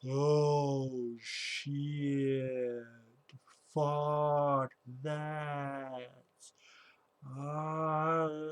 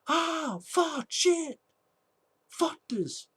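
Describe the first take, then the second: First: It is said slowed down. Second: It is said at normal speed.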